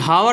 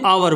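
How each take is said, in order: First: The word begins with an H sound. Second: The word begins with a vowel, no H. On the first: The speaker calls it wrong. "हावर नहीं बोलते" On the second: The speaker calls it right. "आवर बोलते हैं"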